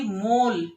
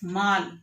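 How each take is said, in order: First: The vowel is a closed o sound. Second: The vowel is a long aa sound. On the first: "अगर हम ओ की मात्रा लगाते हैं" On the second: "माँ पर आ की मात्रा लगाई तो"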